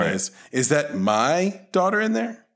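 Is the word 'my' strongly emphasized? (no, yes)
yes. The word 'my' carries strong emphasis. "the second one is like it's hitting him"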